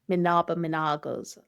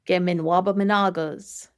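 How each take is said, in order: First: The W is pronounced weakly or dropped. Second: The W is pronounced strongly. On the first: "some people might not hit that W as hard" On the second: "So I'd say"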